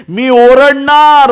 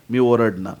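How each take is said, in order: First: Very loud, high, drawn-out yell; stretched-out cry at the top of the voice; defiant full shout. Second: Said in the usual way. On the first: Acted. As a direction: bellow it slowly, refusing to be silenced. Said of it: "बर्तिमय ओरडत होता".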